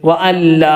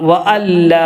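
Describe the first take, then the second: No difference in how they are said.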